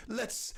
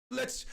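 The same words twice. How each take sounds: The two takes are said the same way.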